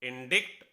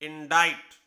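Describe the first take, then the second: First: A k sound comes before the final t. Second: No k sound comes before the final t. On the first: The speaker calls it wrong. "पढ़ने में क्या होगा इंडिक्ट" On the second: The speaker calls it right. "सी की कहीं कोई आवाज नहीं आई"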